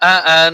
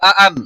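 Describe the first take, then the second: First: The final n is held with a nasal hum. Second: The final n is cut short without nasal hum. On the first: The speaker calls it right. "গুণনা করতে হবে।" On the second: The speaker calls it wrong. "অনেকে বানান করার সময় আ আন, এভাবে না।"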